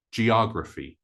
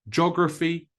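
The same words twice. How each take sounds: First: Geography as jee-OG-ruh-fee; American geography, four syllables, stress on OG; two opening syllables. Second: Geography as JOG-ruh-fee; short geography with one opening syllable, JOG; three syllables. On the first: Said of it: "two syllables to begin with". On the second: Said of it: "more like three syllables than four syllables". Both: Shown as a demonstration.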